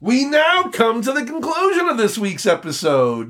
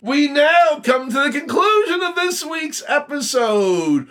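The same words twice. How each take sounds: First: Higher, booming announcer sign-off through a laugh; host closing the show, in a hammed-up announcer voice; radio announcer. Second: Much higher, shouted announcer sign-off; host closing the show, in a grand shouted announcer voice; radio announcer. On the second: Pretend. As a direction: boom it out like a big radio host. Mock radio sign-off again.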